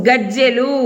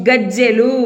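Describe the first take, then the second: Both takes have the same delivery.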